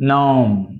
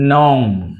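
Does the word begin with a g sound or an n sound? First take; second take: n sound; n sound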